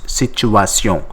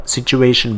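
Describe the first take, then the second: First: Situation said the French way, ending in nasal -syon; French pronunciation. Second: Said in the usual way. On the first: Shown as a demonstration. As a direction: end situation on French -syon, no English "shun". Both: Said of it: "situation becomes situation".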